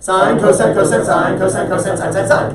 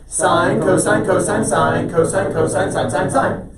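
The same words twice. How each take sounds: First: The words are recited very quickly. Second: The words are recited somewhat quickly.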